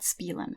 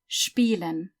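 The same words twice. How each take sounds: First: The word begins with a plain 'sp' sound. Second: The word begins with a 'shp' sound. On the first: The speaker calls it wrong. "It's not spielen" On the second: The speaker calls it right. "The sp makes a sound like sp"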